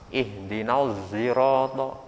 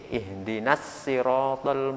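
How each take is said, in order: First: The word sirata begins with a z-like blended sound. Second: The word sirata begins with a plain s sound. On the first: "Dibaca ismam" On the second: "Ada yang membaca sin"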